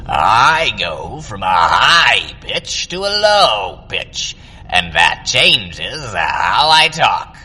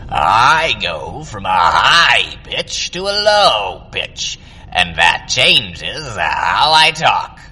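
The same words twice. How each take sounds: First: The voice is airy and breathy. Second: The same.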